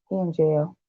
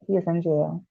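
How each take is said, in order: First: Said in the usual way. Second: "He is in jail" whispered, softer, as a secret; whispered aside. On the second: Real, not acted. Vlogger confides to viewers about her ex, in a whisper.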